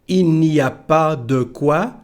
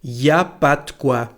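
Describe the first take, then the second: First: Every word is said, including il and n'. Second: Il and the n sound are left out. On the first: "instead of il n'y a pas de quoi" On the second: "we say something like y a pas de quoi. We don't pronounce the letter N"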